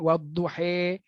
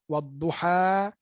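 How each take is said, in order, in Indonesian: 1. Vokal akhirnya adalah e yang jelas. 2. Vokal akhirnya adalah a terbuka. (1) "baris imalah" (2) "baris atas"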